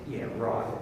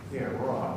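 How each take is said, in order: First: Low, quiet, unconvinced "Yeah, right."; sarcastic yeah right. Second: Low, quiet, disbelieving "Yeah, right."; sarcastic yeah right. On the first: Retold or imitated. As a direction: mutter your disbelief at the salesman. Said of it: "what are you thinking?". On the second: Shown as a demonstration. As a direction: throw it away with disbelief. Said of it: "the words will often completely contradict it".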